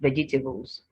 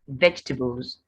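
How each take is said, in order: First: The word is said with four syllables. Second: The word is said with three syllables. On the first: The speaker calls it wrong. "not vegetables" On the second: The speaker calls it right. "three syllables"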